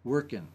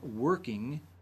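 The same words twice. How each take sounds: First: The ending is cut short without the g. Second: The ending is said in full with the g. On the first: "dropping his INGs" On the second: "Instead of saying working"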